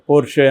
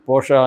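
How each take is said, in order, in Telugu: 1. ఈ పేరు 'eh' అచ్చుతో ముగుస్తుంది. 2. ఈ పేరు 'ah' అచ్చుతో ముగుస్తుంది. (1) "మామూలుగా పోర్ష్ పోర్షే అని కూడా పిలుస్తుంటారు" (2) "పోర్షా అనేది జర్మన్ ప్రొనౌన్సియేషన్"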